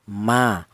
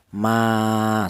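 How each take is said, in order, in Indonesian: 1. Vokalnya pendek, hanya satu ketukan. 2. Vokalnya dibaca panjang, ditahan dua ketukan. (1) "Kalau tidak ada alifnya maka huruf mim berharokat fathah ini dibaca pendek, yaitu satu harokat" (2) "maka kalau ada lafaz seperti ini maka dibaca panjang, yaitu satu alif atau dua harokat atau dua ketukan"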